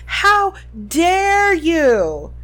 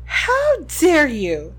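First: Very slow, higher furious yell; yelling while running away. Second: Shouted, slow and stretched; furious shout while running; yelling while running away. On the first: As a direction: fling the outrage across the lawn. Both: A narrator's reading. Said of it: "the figure shouted as she ran".

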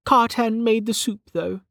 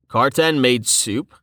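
First: High-pitched character voice, matter-of-fact; Velika's statement. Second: Slow questioning rise on "soup"; "soup" lifted at the end, sceptical. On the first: Acted. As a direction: state it in a much higher voice. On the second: A narrator's reading. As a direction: ask "Karten made soup?" slowly, in disbelief. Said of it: "raising an eyebrow".

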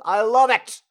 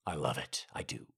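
First: Loud, high burst of delight; delighted shout. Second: Low, subdued admission; sober confession. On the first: Acted. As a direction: belt out how much you love it. Delighted outburst after his impression. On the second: Real, not acted. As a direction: drop down low and admit it. Drops back after the shout.

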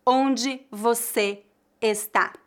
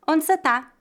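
First: "Onde você está" slow, word by word, nothing dropped; careful full forms. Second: "Onde cê tá" run together, quick and higher; natural reduced pronunciation. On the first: Teacher shows what is rarely said, "Onde você está" slow and complete. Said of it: "raramente alguém vai dizer". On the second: Teacher models natural question, "Onde cê tá" quick and linked. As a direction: say "Onde cê tá" as one linked casual unit. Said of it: "A pronúncia mais natural seria". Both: Shown as a demonstration.

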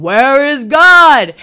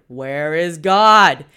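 First: Very loud, drawn-out bellow; preacher bellowing the question a third time at the boys. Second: Slow, loud booming question; preacher repeating his question to two scared boys, louder. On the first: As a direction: bellow it with everything you've got. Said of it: "bellowed it out again". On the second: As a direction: boom the question out slowly and heavily. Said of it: "repeated his question even louder". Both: Retold or imitated.

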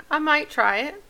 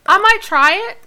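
First: Said in the usual way. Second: High, loud eager try. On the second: Shown as a demonstration. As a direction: say it bright and loud.

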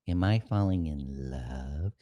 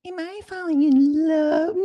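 First: Quietly, slowly asking himself in awe; a soft, lowered, slowed-down mock question; half-whispered mock realization; hushed wonder. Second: A shrieking, very high cry of a question; hammed-up swooning squeal, then laughing; cartoonish falsetto wail of mock love. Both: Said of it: "you're like".

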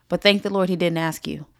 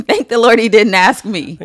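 First: Said in the usual way. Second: Louder, higher, laughing "Thank the Lord"; laughing exclamation. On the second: Real, not acted. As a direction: burst out with a laugh, much louder. Repeated punchline, plain then exclaimed.

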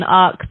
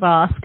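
First: "ox", the k moved before the s; ask said as "ox". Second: Said in the usual way. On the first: Retold or imitated. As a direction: say ask with its last sounds swapped, "ox". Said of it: "she kept saying". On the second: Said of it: "instead of".

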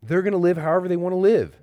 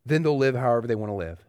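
First: Fast, louder, higher-pitched challenge from an objector; voicing the objection. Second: Said in the usual way. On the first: Pastor voicing a skeptic's objection to grace, fast and loud. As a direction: rattle off the objection like a skeptic pushing back. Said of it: "That objection". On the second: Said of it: "the answer to that objection is no".

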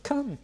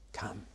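First: A high, eager "Come"; eager invitation. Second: A much softer, lower "Come"; soft reply. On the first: Jesus inviting the people, a high, eager call. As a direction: lift it up as an open invitation. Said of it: "Come to the people". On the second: The people answering Jesus, a soft, quiet "Come". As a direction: answer back gently and quietly. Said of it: "the people respond". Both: Acted.

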